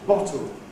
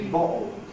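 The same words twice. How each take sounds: First: The middle consonant is a T sound. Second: The middle consonant is a glottal stop. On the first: "S two English"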